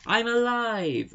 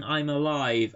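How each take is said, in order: First: High, loud, drawn-out cry; mock exclaim. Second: Said in the usual way. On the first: Woman kissing the hero, hammed-up exclaiming. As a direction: belt it out like a revelation. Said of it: "snogs him and says". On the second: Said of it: "shouting it with three exclamation marks".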